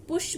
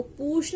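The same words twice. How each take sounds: First: पुश with a short clipped ु; short vowel. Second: पुश with a long, stretched ऊ; wrong long vowel. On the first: Teacher giving students the correct पुश, short ऊ. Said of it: "पुश बोलते हैं". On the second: Teacher showing students the wrong पुश, long ऊ. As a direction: draw out the ऊ in पुश as the wrong form. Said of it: "इसको पुश नहीं बोलेंगे". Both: Shown as a demonstration.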